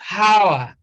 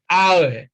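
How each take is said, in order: First: The word begins with an audible H sound. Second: The word begins with no H sound. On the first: The speaker calls it wrong. "It's not hour" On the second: The speaker calls it right. "H is also silent in hour"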